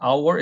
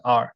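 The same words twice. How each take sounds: First: Our as a-wo, two syllables; two-syllable mispronunciation. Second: R as one open syllable; reduced our. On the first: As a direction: say 'our' split into two beats. (our를 '아-워'로 또박또박) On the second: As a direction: say 'R' for our, like 'ar'. (R처럼 '아r' 한 음절로) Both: Shown as a demonstration. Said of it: "이렇게 발음하지 않죠".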